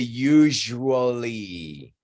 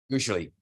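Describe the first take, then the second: First: The word is said slowly with every syllable. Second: The word is said quickly with syllables reduced. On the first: The speaker calls it wrong. "People don't say usually" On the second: The speaker calls it right. "is pronounced very shortly"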